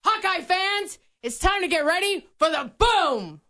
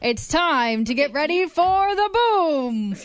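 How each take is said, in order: First: Announcer voice. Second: Drawn-out mock announcer line, slow; a laughing imitation of the stadium voice; imitating stadium announcer. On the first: Pretend. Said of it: "I didn't love it". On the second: Co-host showing how the announcer says the line, half laughing. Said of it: "he goes".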